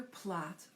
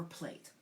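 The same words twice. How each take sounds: First: "plat" with a short flat-A vowel, as in "cat"; first pronunciation. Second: "plate" with a long A, as in "late"; "plate" with the AY vowel; alternative pronunciation. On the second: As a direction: say "plate" to rhyme with "gate". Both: Shown as a demonstration. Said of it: "to pronounce it".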